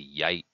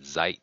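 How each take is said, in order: First: It begins with a y sound, Southern style. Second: It begins with a z sound, Northern style.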